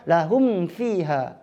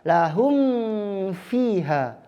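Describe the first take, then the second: First: The phrase is said at a fast pace. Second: The phrase is said at a slow pace.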